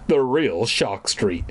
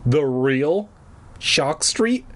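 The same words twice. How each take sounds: First: Said in the usual way. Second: Amazed cry. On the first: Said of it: "Dad nodded". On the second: A narrator's reading. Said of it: "Marty cried".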